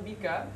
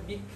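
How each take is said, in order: First: The word ends with a pronounced vowel. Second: The word ends on a consonant. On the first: It is heavier to say. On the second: It is lighter to say.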